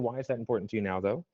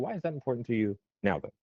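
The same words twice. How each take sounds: First: No single word is stressed. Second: The word "now" is stressed. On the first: The listener picks the meaning. "First one, neutral" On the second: The listener answers in terms of time frame. "you will answer in terms of time frame"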